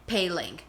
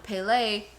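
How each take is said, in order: First: The name ends with a final 'ling' sound. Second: The name ends without a final 'ng' sound. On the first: This follows the written spelling. "Now they're saying it how it's written" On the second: This is how the show used to say it. "in the first few seasons they were calling her Pele"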